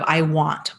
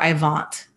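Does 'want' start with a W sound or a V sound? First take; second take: w sound; v sound. First: The word 'want' starts with a W sound. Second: The word 'want' starts with a V sound. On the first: This is how a native English speaker says it. The speaker calls it right. "Like instead of I want or water" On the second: This is how a German speaker might say it. The speaker calls it wrong. "they might pronounce their W's as V's"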